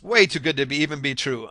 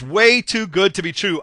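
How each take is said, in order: First: It sounds doubtful and dismissive. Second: It sounds excited and eager. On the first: The offer is not believable, so the buyer leaves. The speaker calls it wrong. "I'm walking away from this" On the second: The offer is too good to miss, so the buyer acts. The speaker calls it right. "wow, ... I cannot pass this up"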